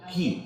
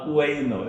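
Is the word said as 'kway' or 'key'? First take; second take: key; kway. First: The word is said with a 'k' start and 'ee' vowel. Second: The word is said with a 'kw' start and 'ai' vowel. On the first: The speaker calls it right. "Actually അതിൻ്റെ ഉച്ചാരണം കീ എന്നാണ്" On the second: The speaker calls it wrong. "കുവൈന്നോ ഇതായിരിക്കില്ലേ?"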